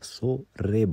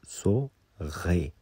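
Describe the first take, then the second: First: The r is a tapped sound made at the front. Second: The r is a throaty sound made at the back. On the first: "अगर गे नहीं बोल पाते तो आप सो रे बोलिए" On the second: "practice कीजिए कि सो गे"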